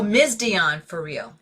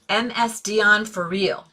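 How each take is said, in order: First: Ms is said as the single word miz. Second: Ms is spelled out as two separate letters. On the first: The speaker calls it right. "I'm getting corrected" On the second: The speaker calls it wrong. "Did I not say that right?"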